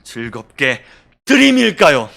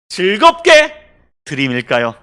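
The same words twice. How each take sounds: First: The stress is on 드림. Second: The stress is on 즐겁게.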